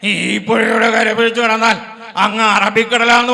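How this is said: An impression in a rattling voice like an engine. "ഓട്ടോറിക്ഷയുടെ ശബ്ദവും എന്റെ ശബ്ദവും ഒരുപോലെ തന്നെ"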